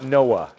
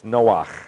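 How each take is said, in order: First: The name ends softly on a plain vowel. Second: The name ends in a harsh throat sound. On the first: The speaker calls it wrong. "It's not Noah" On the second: The speaker calls it right. "Noach sounds con ganas, con fuerza"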